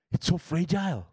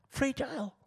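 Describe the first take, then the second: First: Said in the usual way. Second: Fragile lifted high and hushed, set apart; a high, breathy echo of Fragile; echoed word. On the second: Shown as a demonstration. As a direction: echo Fragile softly up high, like it might break.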